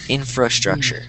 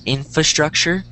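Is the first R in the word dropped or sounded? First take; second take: sounded; dropped. First: The first R sound is clearly pronounced. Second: The first R sound is left out. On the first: The speaker calls it right. "the correct way is infra" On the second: The speaker calls it wrong. "I am not pronouncing this first R"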